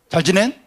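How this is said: It is said in Jeju dialect, ending dropped.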